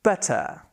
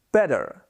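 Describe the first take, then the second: First: British better. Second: Better with a hard American R at the end. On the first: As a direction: drop the R in better, British style. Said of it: "in British English we say". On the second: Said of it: "Americans would say". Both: Shown as a demonstration.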